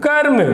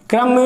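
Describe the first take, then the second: First: कर्म said as two beats, kar-m, a touch higher; pronouncing karm. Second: क्रम said as one tight syllable, kram; pronouncing kram. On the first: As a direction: split कर्म into कर and म. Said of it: "क्रम या कर्म". (कर्म को दो हिस्सों में, कर और म) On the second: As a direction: say क्रम with क and र joined, one beat. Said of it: "मैंने बोला क्रम". (क्रम को एक ही झटके में, क्र जोड़कर) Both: Shown as a demonstration.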